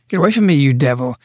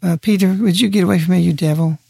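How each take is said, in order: First: Firm, fast rebuke to Peter; forceful rebuke. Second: A hint of polite hesitance, asking nicely; mildly meek, almost apologetic; mock timid request. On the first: Retold or imitated. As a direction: drive the devil off, quick and hard. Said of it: "think of his voice". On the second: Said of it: "I don't think he said it".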